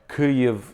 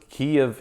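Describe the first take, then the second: First: The city name is pronounced the Ukrainian way. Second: The city name is pronounced the Russian way. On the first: "the Ukrainian way" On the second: "the Russian way of saying it"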